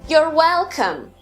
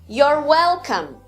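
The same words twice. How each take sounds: Both takes have the same delivery.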